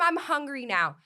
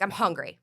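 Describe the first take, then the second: First: It is said slowly and gradually, creeping in. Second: It is said suddenly and forcefully, like a slap.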